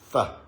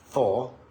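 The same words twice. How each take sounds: First: The vowel in for is reduced. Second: The vowel in for is full. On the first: "that word for becomes for" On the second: "if they were said in isolation"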